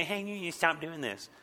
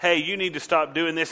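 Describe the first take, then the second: First: Put-on soft, childish parroting; mocking echo. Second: Said in the usual way. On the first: Kid throwing an adult's words back, mocking. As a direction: regurgitate it in a small mocking voice. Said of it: "what you said in a mocking tone". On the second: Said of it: "you've come up to somebody and you've said".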